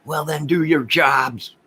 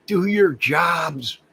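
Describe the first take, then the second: First: Higher and louder, slowed, demanding they do their work; a fed-up citizen telling police off; indignant demand. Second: "your" stretched out, much higher and louder, very slow; stress on your. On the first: Fed-up streamer tells the police to do their jobs, higher and louder. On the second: Repeating it to the police, "your" drawn out high and loud. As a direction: hammer home "Do your jobs." word by word. Repeats the demand even slower. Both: Real, not acted.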